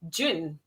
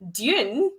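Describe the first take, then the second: First: It starts with a j sound, like the month. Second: It starts with a plain d sound.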